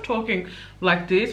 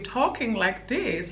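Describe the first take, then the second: First: The voice is in its ordinary natural register. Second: The voice is softened and sounds like a baby. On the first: "which is how I normally talk" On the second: "really softening my voice, kind of talking like a baby"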